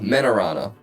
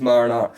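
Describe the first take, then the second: First: The name begins with 'men' and ends 'rana'. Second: The name begins with 'mar' like marinara sauce. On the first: The speaker calls it right. "Not Marinara" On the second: The speaker calls it wrong. "I might be pronouncing that wrong"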